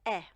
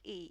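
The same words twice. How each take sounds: First: The vowel sounds like the vowel in egg. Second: The vowel is unlike the vowel in egg. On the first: The speaker calls it right. "a little like the E sound in the word egg" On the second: The speaker calls it wrong. "which in Portuguese is not pronounced E"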